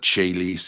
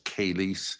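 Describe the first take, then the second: First: The word begins with a ch sound. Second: The word begins with a k sound. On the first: This is the Church Latin pronunciation. "pronounced like with an Italian uh, pronunciation" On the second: This is how some say original Latin sounded. "sounds more Germanic"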